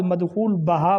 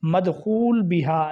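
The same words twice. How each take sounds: First: مدخول بہا as "madkhool ba-ha"; common mispronunciation. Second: مدخول بہا slowly, as "madkhool bi-ha"; slow, careful "bi-haa" in مدخول بہا; correct pronunciation. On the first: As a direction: say بہا with "ba", zabar on the ba. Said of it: "با کے اوپر زبر پڑھتے ہیں". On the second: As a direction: say بہا with "bi", zer under the ba. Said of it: "با کے نیچے زیر". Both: Shown as a demonstration.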